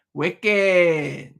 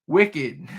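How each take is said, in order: First: Wicked drawn out in a Boston accent; playful, stretched Boston "Wicked". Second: Said in the usual way. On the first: Shown as a demonstration. Streamer joking with chat after a laugh, Boston accent. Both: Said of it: "in the Boston accent".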